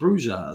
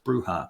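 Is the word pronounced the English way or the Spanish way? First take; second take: English; Spanish. First: The word is pronounced with English sounds. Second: The word is pronounced with Spanish sounds. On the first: "A lot of people can't say that or don't know that, so they call it bruja" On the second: "in Spanish, it's pronounced bruja"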